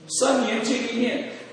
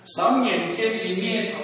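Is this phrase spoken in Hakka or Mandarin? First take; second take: Mandarin; Hakka. First: The phrase is spoken in standard Mandarin. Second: The phrase is spoken in the Hakka dialect.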